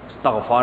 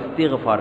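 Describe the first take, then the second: First: No vowel is heard after the t sound. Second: An 'i' vowel is heard after the t sound. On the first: The speaker calls it wrong. "लोग कहते हैं इस्तगफार कर रहा है, इस्तगफार नहीं कर रहा भाई" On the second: The speaker calls it right. "इस्तिगफार कर रहा है"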